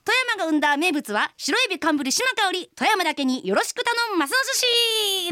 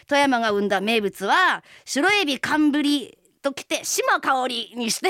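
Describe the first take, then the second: First: Pitched higher, a big bright pitch for the audience; showpiece self-introduction. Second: Lines spelled out slowly, word by word; a coach slowly feeding her the self-introduction. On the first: Shown as a demonstration. The singer performs her finished intro for her co-host, pitched up and hammed. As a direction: sell the catchphrase like a stage debut. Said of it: "出来上がったよって聞いてくれる？". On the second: Retold or imitated. A coach dictating the intro to the singer, slow and deliberate. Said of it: "とか言って".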